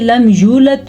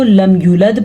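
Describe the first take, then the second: First: The word is said in full. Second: A sound is dropped from the word. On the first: The speaker calls it right. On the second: The speaker calls it wrong.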